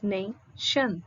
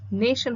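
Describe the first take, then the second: First: "nation" broken into NAY, pause, SHUN; split into syllables. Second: Said in the usual way. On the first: Shown as a demonstration. Teacher showing students two syllables, "nation" split apart. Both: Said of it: "Nation has two syllables".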